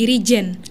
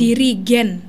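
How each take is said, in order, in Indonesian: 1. Konsonan di tengah adalah bunyi j. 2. Konsonan di tengah adalah bunyi g keras. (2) "pakai G"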